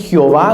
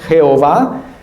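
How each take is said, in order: First: The first syllable sounds like 'ji'. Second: The first syllable sounds like 'je'. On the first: The speaker calls it wrong. "Algunos dicen Jehová, no sé por qué dicen Ji" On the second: The speaker calls it right. "pero es Jehová"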